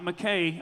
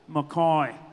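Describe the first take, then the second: First: The name is said like the surname McKay. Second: The name is said the local Mackay way. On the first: The speaker calls it wrong. "It's not McKay" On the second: The speaker calls it right. "Say it right for him"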